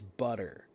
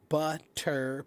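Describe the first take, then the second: First: The middle consonant is a soft D. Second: The middle consonant is a hard T. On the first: "becomes a soft D" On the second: "the hard T"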